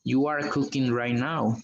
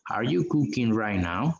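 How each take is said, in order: First: Said in the usual way. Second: Are you cooking right now? with the voice rising at the end; teacher lifts the end of Are you cooking right now? to show a question; rising question tune. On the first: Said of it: "solo digo". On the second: Shown as a demonstration. Teacher contrasting statement and question, rising question tune. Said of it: "si es una pregunta, voy a decir".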